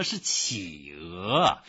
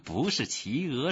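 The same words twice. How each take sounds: First: Slow, deliberate “企鹅”, dipping then rising; emphatic correction. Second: “企鹅” said quicker, higher, as the misheard version; brisk, higher “企鹅” being rejected; wrong name corrected. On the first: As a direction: draw out each syllable of “企鹅”. Gives the right pronunciation. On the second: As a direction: quote “企鹅” back the clerk's way, unstretched. Corrects the clerk's mispronunciation. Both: A narrator's reading.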